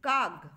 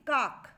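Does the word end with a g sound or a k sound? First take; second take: g sound; k sound. First: The word ends with a voiced g sound. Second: The word ends with a voiceless k sound. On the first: "মাঝে মধ্যে উচ্চারণ করি কাগ, অর্থাৎ ক হয়ে যায় এখানে গ" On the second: "কাক শেষে রয়েছে ক"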